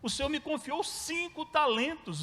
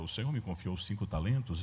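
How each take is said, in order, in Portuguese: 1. É dita com uma voz feliz e animada. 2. É dita com uma voz monótona, sem animação. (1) "esse cara devia estar feliz" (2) "Eu não consigo ler essa parte assim"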